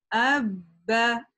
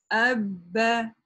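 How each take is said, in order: The two takes are said the same way.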